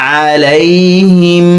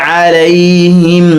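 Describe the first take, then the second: Both takes have the same delivery.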